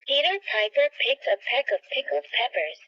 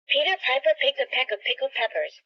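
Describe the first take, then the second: First: It is said at a normal speed. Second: It is said fast.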